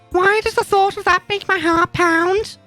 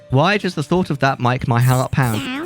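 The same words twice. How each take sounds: First: It is read in an acted character voice. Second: It is read in the speaker's ordinary voice.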